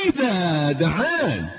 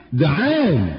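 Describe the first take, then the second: First: دعان drawn out slowly, falling; slow emphasis. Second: Said in the usual way. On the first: Shown as a demonstration.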